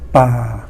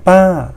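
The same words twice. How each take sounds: First: The pitch stays low throughout. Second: The pitch falls from high to low. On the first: The forest. "the low tone" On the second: Auntie. "the falling tone"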